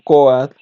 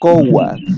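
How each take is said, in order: First: The o and a run together as one glide. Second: A w sound separates the o and a. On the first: This is the form commonly taught. "nos lo han enseñado como coat" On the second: This is the original, purer sound of the language. "el sonido de la lengua lo rescata como cowat"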